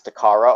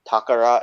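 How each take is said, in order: First: It is said with an anglicized pronunciation. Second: It is said with the Japanese pronunciation. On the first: The speaker calls it wrong. "I always pronounce it as Takara" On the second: The speaker calls it right. "as Phil pronounces it properly"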